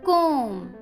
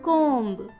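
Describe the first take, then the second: First: The word ends without a b sound. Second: The word ends with a b sound. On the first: The speaker calls it right. "बी यहाँ silent है" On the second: The speaker calls it wrong. "ना कि कोम्ब"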